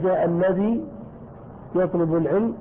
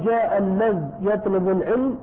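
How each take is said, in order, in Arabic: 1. تنتهي الكلمة بحركة ee طويلة. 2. تنتهي الكلمة بلا حركة بعد dh. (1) "لك أن تثبت الياء" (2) "لك أن تسكن"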